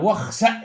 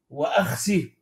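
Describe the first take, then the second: First: It starts smoothly and ends in a glottal stop. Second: It starts with a glottal stop, ending in ee. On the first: "بوصل الهمزة، وفتح السين وبهمزة ساكنة" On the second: "بقطع الهمزة وكسر السين من غير همزة"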